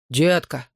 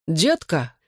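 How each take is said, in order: First: Said in the usual way. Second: Mild call with swooping pitch. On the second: A narrator's reading. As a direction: holler to her across the room, understated. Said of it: "крикнул ей бритоголовый парень".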